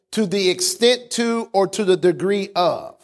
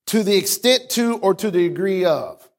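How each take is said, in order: Both takes have the same delivery.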